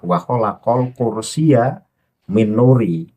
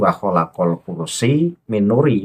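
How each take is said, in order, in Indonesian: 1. Kata 'kursi' berakhir dengan tambahan 'ya'. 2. Kata 'kursi' berakhir dengan 'i' biasa. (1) "padahal yang benar adalah" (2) "bacaan Pak Lutfi"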